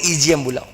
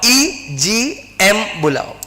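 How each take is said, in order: First: Said in the usual way. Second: Very slow, stretching EGM बुलाओ out word by word; slow drilled answer. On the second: Shown as a demonstration. Teacher drilling students on the answer, very slow. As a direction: spell out EGM बुलाओ syllable by syllable for the class. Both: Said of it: "क्या बुलाओ?".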